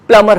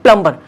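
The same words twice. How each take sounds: First: प्लम्बर said plum-er, with a silent b; the right way, प्लम्बर with no b; correct plumber. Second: प्लम्बर said plum-ber, with the b sounded; the mistake, प्लम्बर with a clear b; wrong plumber. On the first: Teacher shows students the correct form, प्लम्बर as plum-er. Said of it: "वो प्लम्बर होता है". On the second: Teacher shows students the wrong form, प्लम्बर as plum-ber. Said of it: "वो प्लम्बर नहीं होता". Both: Shown as a demonstration.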